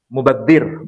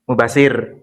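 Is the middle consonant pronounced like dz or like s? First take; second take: dz; s. First: The middle consonant sounds like dz. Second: The middle consonant sounds like s. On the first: This is the original Arabic form. "kalau kita menyebut mubadzir bahasa Arabnya" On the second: This is the form adapted into Indonesian. "di sini jadi apa? Mubasir"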